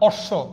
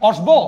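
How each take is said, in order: First: The 'sh' sound is doubled, with no 'b'. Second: A 'b' sound is heard after the 'sh'. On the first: The speaker calls it right. "পদের মাঝখানে অথবা শেষে থাকলে উচ্চারণে দ্বিত্ব হবে" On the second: The speaker calls it wrong. "অশ্ব না"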